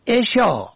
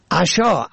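First: عشا said "eshaa"; kasra on first syllable. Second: عشا said "ashaa"; fatha on first syllable. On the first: Presenter teaching the word for bedtime, عشا as "eshaa". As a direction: open عشا with short e. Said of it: "به کسر اول". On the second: Presenter teaching the word for supper, عشا as "ashaa". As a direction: open عشا with short a. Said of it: "به فتح اول". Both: Shown as a demonstration.

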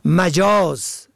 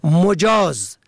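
First: "مجاز" as ma-JAAZ; short a in first syllable. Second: "مجاز" as mo-JAAZ; short o in first syllable. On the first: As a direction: say "مجاز" with fatha on the m. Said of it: "به فتح اول". («مجاز» به فتح اول) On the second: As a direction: say "مجاز" with damma on the m. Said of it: "به ضم اول". («مجاز» به ضم اول) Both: Shown as a demonstration.

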